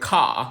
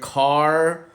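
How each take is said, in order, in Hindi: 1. इस शब्द को ब्रिटिश उच्चारण में बोला गया है। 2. इस शब्द को अमेरिकी उच्चारण में बोला गया है। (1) "ब्रिटिश कहेगा खा" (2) "अमेरिकन कहेगा कार"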